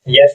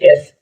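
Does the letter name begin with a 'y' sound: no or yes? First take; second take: yes; no. First: The letter name begins with a y sound. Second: The letter name begins with a plain vowel. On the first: The speaker calls it wrong. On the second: The speaker calls it right.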